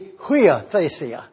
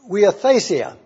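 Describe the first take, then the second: First: It begins with an audible h sound. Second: It is said quickly with no h sound. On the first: "if you put the H there and pronounce it" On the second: "we say this so rapidly that you don't hear it"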